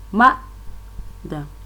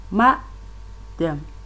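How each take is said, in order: First: The stress is on the first syllable. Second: The same.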